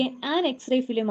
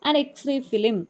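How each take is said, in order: First: Slow, with "an" pressed before "X-ray"; slowly, stressing "an". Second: Said in the usual way. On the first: Shown as a demonstration. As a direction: lean on "an" before "X-ray film". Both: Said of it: "നോക്കിക്കേ".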